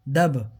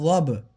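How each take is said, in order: First: The word starts with a plain d sound. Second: The word starts with an emphatic zaad sound. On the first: The speaker calls it wrong. "इसको क्या पढ़ते हैं दबहा" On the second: The speaker calls it right. "अब ये ज़ाद है"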